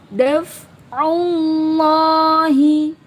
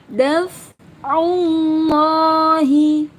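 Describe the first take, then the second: The two takes are said the same way.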